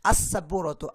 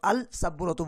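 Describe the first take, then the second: First: The L merges into a doubled S sound. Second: A clear L sound comes before the S. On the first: The speaker calls it right. "সিন এটা উচ্চারিত হয় না" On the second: The speaker calls it wrong. "বলি না"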